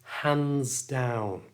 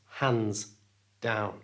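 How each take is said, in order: First: The words are linked smoothly through the S sound. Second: The words are said apart without linking. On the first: The speaker calls it right. "join the hands to the down using the S sound" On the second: The speaker calls it wrong. "not hands down"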